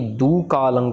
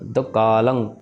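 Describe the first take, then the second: First: The first vowel is long, with a break. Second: The first vowel is short, said quickly. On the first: The speaker calls it wrong. "ना ही दू कालंग कहना है। दद्दे में दुरंकड़ भी नहीं लगानी" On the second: The speaker calls it right. "सो दद्दे औंकड़ दो। जल्दी जल्दी बोलना है"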